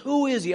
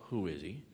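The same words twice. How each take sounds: First: The question sounds eager and longing. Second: The question sounds dismissive and doubtful. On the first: The asker truly wants to believe in the person. The speaker calls it right. "the tone is, ... I want to believe in him" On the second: The asker doubts or scorns the person. The speaker calls it wrong. "It wasn't, well"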